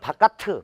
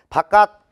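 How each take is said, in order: First: An extra vowel is added after the final consonant. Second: The word ends cleanly on the final consonant. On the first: The speaker calls it wrong. "이렇게 발음할 수가 없다고" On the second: The speaker calls it right. "발음"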